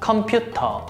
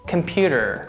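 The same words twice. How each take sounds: First: It is said with Korean pronunciation. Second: It is said with American pronunciation. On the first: "Korean pronunciation" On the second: "American pronunciation"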